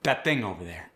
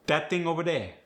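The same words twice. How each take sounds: First: Said in the usual way. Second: Dat ting over dere in Cajun accent. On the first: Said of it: "The voiced T H". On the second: Shown as a demonstration. Coach contrasting plain and Cajun accent. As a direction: drop the TH sounds, Cajun style. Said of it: "get the D".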